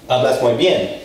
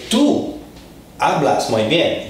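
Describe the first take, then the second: First: Said in the usual way. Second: "Tú" punched high, then a beat before the rest; stress on Tú. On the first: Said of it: "Like in one case you're saying". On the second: Shown as a demonstration. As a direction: lift "Tú" well above the other words, set apart for emphasis. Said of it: "if you wanna emphasize it".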